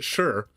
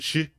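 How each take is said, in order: First: The word sounds like English 'sure'. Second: The word sounds like English 'she'. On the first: This is the accent the speaker was taught. "I learned it sure" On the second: This is how people from other regions say it. "some people pronounce it shi"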